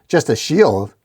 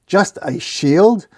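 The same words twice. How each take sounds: First: Put-out, falling echo of the insult; offended, with a punch on shield; defensive. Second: Slow, higher, indignant rising question; defensive disbelief. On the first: Shield answering the dork's slight, defensive. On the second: Shield repeating the dork's slight, defensive and incredulous. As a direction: draw out shield in offended disbelief. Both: A narrator's reading. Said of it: "Don't get defensive".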